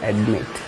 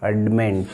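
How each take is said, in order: First: No n sound comes before the final t. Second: An n sound comes before the final t. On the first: "can you guess the word?" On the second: "ಅಡ್ಮಿಂಟ್ ಅನ್ನೋದು easy to pronounce"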